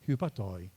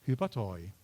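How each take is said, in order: The two takes are said the same way.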